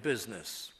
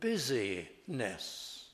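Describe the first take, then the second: First: The word is said with two syllables. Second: The word is said with three syllables. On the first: It refers to commerce. The speaker calls it wrong. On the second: It refers to being busy and active. The speaker calls it right.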